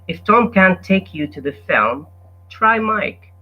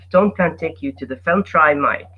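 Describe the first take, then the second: First: There is a pause after "film." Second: It is read quickly without a pause. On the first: The speaker calls it right. "if you give a pause after film, you will be able to read it easily" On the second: The speaker calls it wrong. "if you read it quickly as, as this"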